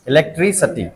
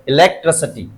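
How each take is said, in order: First: "इलेक्ट्रिसिटी" as e-lek-TRI-suh-tee; variant pronunciation. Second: "इलेक्ट्रिसिटी" as e-lek-truh-suh-tee; variant pronunciation. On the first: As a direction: keep a clear i in ट्रि of "इलेक्ट्रिसिटी", then suh-tee. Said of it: "इलेक्ट्रिसिटी भी होता है और". ("इलेक्ट्रिसिटी" को इलेक्ट्रिसटी बोलें) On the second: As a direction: reduce ट्रि to truh in "इलेक्ट्रिसिटी". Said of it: "और इलेक्ट्रिसिटी भी होता है". ("इलेक्ट्रिसिटी" को इलेक्ट्रसटी बोलें) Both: Shown as a demonstration.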